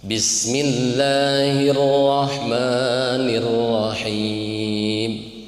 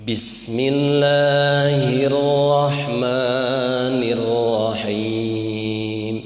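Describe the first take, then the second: No difference in how they are said.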